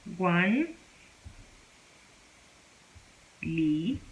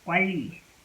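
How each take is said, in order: First: An n sound is followed by an l. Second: The n becomes l, giving a double l. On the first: The speaker calls it wrong. "This is wrong" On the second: The speaker calls it right. "You're supposed to pronounce this as"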